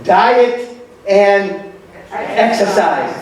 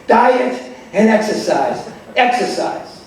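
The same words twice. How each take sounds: First: Mock doctor stressing each word, Diet and exercise; drawn-out emphasis. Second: Diet and exercise run together, exercise repeated and fading to a near-unvoiced last exercise; repeated emphasis. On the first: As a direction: spell it out slowly like a tired doctor: Diet, and, exercise. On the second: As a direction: repeat the advice, trailing off on exercise. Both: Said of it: "they said the same thing".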